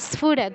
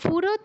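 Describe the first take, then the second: First: The word begins with an 's' before 'ph'. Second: The word begins with a plain 'ph' sound. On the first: The speaker calls it right. "দন্তে স্পর্শ করে তারপর ফতে যেতে হবে" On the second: The speaker calls it wrong. "ফুরত নয়"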